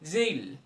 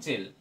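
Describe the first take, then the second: First: The vowel is a long gliding 'ay' sound. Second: The vowel is a short plain 'e' sound. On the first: The speaker calls it right. "Long sound হবে" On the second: The speaker calls it wrong. "Not জেল"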